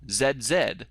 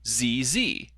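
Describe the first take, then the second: First: The letter Z is said the British way. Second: The letter Z is said the American way.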